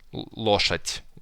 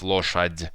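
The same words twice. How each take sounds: First: The final consonant sounds like a voiceless t. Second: The final consonant sounds like a voiced d. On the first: The speaker calls it right. "d, which you pronounce like t" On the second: The speaker calls it wrong. "instead of"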